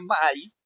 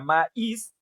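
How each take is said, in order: First: The stress is on the first syllable. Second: The stress is on the second syllable. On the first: The speaker calls it wrong. "la palabra no se pronuncia maíz" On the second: The speaker calls it right. "se pronuncia maíz, ... porque la I es la más fuerte"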